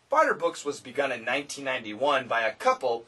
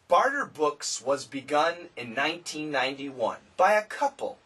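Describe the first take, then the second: First: The sentence is read at a fast pace. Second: The sentence is read at a slow pace. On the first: "then quick"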